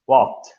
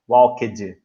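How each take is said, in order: First: The word is said as one syllable. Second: The ending is said as an extra syllable. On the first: The speaker calls it right. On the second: The speaker calls it wrong.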